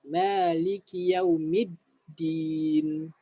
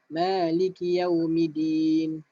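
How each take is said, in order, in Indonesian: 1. Bunyi d dibunyikan ganda dengan jeda sebentar. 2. Bunyi d dibunyikan tunggal tanpa jeda. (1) "Bila ada syaddah, mesti kena berhenti sekejap" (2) "Jangan Maliki yaumidin"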